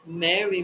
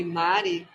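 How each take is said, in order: First: Mary with an open "eh" in the first syllable; name pronounced as English Mary; English-style Mary. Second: Mari with an open "ah" in the first syllable; name pronounced as Portuguese Mari; Portuguese-style Mari. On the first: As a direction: say Mary the English way, "MEH-ree". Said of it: "É chique Mary". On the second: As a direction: say Mari the Brazilian way, "MAH-ree". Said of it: "Mari também". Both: Shown as a demonstration.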